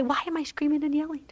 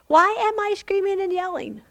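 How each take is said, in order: First: Fast, soft, searching question to God; quick soft prayer. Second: Higher, pressing repeat of the question; urgent plea. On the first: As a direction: rush the question under your breath. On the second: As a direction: push the question up, pleading. Same prayer repeated urgently. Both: Acted.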